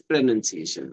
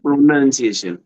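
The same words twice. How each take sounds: First: PRONUNCIATION with NUN in the middle, "pre-nun-see-AY-shun"; correct pronunciation. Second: PRONUNCIATION with a rounded "pro-non" start, said louder; wrong pronunciation. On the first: Teacher modelling the word for a learner, correct pronunciation. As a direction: say PRONUNCIATION with a short "nun", not "noun". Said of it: "It's not pronunciation". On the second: Teacher showing a learner the mistake, wrong pronunciation. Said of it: "It's not pronunciation, right?". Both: Shown as a demonstration.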